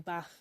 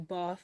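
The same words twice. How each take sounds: First: It is said in a Manchester accent. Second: It is said in a southern English accent. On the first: It copies the listeners' way to annoy them. "I say it the exact same way as you" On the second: This is the speaker's usual way. "I wouldn't say bath"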